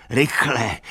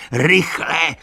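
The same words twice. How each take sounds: First: A raised, urgent first call; first cry of alarm, still holding back. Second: High, loud shout of alarm. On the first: Benjamin warning the animals, urgent raised call. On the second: Benjamin warning the animals, loud alarmed shout. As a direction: let the second cry burst out. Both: A narrator's reading. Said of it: "křičel".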